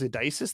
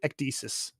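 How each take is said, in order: First: The c is said without a hard K sound. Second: The c is said with a hard K sound. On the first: The speaker calls it wrong. "That sounded very wrong" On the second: The speaker calls it right. "like like hard hard K"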